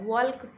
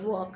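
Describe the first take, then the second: First: The L sound is pronounced in the word. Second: The L sound is left silent in the word. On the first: The speaker calls it wrong. "वो सही नहीं है, वो गलत है" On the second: The speaker calls it right. "एल silent होता है"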